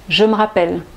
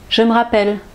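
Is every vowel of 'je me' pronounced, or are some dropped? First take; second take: vowel dropped; vowel dropped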